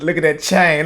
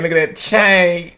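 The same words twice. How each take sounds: First: Said in the usual way. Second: Slow, awed "chain" stretched out; awed drawn-out. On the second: Acted. Host slowly admiring the spokesperson's chain, in awe. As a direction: savour the word "chain" slowly.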